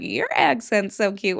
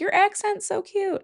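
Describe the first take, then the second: First: "Your" stressed, the rest near usual pitch; retort with stress on YOUR. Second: High-pitched gushing compliment, imitated; imitated cooing over an accent; admiring strangers. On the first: Retold or imitated. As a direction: throw it back, leaning on "Your". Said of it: "And I was like". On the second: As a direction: coo it way up high like a charmed stranger. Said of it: "people were like".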